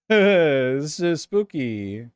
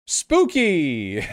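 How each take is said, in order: First: Very slow, drawn-out ghost-story voice; hammed-up haunted-house voice; mock spooky voice. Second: Bright exclamation, louder and a bit higher; plain excited exclamation; excited spooky. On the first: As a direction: stretch every word like telling a ghost tale. Repeats spooky in a put-on voice. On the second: Real, not acted. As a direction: call it out with delight. Reacting to the trees.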